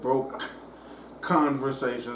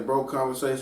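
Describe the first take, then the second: First: It is said slowly, the k clearly pronounced. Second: It is said fast, the k barely heard. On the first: The speaker calls it right. "I gotta slow it down every time and enunciate" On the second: The speaker calls it wrong. "I say broke conversations. It sounds like bro conversations"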